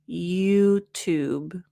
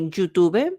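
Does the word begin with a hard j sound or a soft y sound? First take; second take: soft y; hard j. First: It begins with a soft y sound. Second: It begins with a hard j sound. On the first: The speaker calls it right. "open up the mouth a little more" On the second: The speaker calls it wrong. "Spanish speakers, you might say YouTube, j, j"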